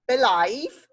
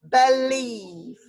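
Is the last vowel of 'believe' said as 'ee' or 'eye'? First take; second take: eye; ee. First: The last vowel sounds like 'eye'. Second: The last vowel sounds like 'ee'. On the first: The speaker calls it wrong. "we'll try I first" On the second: The speaker calls it right. "Let's try the E sound then"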